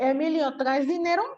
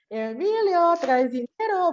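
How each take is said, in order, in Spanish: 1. La pregunta se hace con un tono normal y sencillo. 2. La pregunta se hace con un tono muy distinto.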